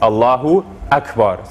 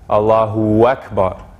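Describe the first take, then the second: First: A glottal stop separates the two words. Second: A W glide links the two words. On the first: The speaker calls it right. "making sure to have that glottal stop in between the U and the A" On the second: The speaker calls it wrong. "it's like adding a W in between the U and the A here"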